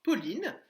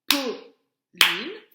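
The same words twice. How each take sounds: First: Said in the usual way. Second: "Pauline" in two separate beats, loud first syllable; "Pauline" broken in two for a young class; split into syllables. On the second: Shown as a demonstration. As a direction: clap out "Pauline" syllable by syllable, pause between. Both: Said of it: "c'est la première syllabe d'un mot".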